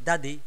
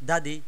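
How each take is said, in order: No difference in how they are said.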